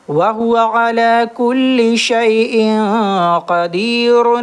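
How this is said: It runs on as 'qadirun' into the next word. "एक नंबर आयत में ठहरना नहीं होगा।"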